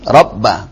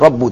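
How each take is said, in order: First: The word ends with an 'a' vowel. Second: The word ends with a 'u' vowel. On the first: The word is read as the object. The speaker calls it right. "Kenapa rabba? Objek maf'ul bih kan" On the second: The word is read as the subject. The speaker calls it wrong. "antum baca itu rabbu tadi"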